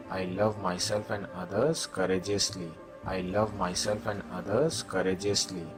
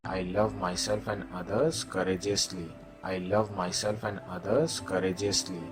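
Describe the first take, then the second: No difference in how they are said.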